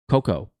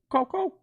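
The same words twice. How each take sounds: First: It is said in a normal voice. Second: It is said imitating the Coco bird's voice.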